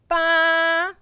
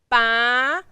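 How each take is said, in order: First: The pitch stays high and level. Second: The pitch rises from mid to high. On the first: "when you pronounce the first tone and try to keep the sound flat" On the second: "the second tone, you can move your eyebrow a little bit up"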